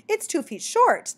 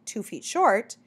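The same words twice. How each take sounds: First: High, slow, louder insistence; a little impatient. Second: Said in the usual way. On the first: A narrator's reading. Mockingbird repeats the point to the baffled bat, a little impatient. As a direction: repeat it pointedly, drawn out and higher. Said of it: "said a little impatient". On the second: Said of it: "bat said blankly".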